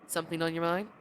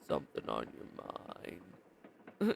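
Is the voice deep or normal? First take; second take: normal; deep. First: It is said in his normal voice. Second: It is said in a deeper voice.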